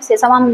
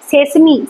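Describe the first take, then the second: First: The word ends with a 'mum' sound. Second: The word ends with a 'mee' sound. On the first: The speaker calls it wrong. "সেসামাম নয়" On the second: The speaker calls it right. "কথাটা হচ্ছে সেসমি"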